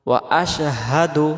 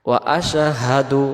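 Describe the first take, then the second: No difference in how they are said.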